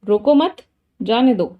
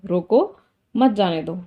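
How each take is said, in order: First: There is a pause after the second word. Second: There is a pause after the first word. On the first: Don't stop him, let him go. "मतलब उसको रोको मत, उसको जाने दो" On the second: Stop him, don't let him go. "रोको थोड़ा सा रुकी, मत जाने दो"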